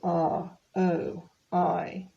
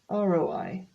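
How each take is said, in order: First: The letters are said separately with gaps. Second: The letters are run together smoothly. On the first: The speaker calls it wrong. "you don't sort of say" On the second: The speaker calls it right. "it becomes R O I altogether"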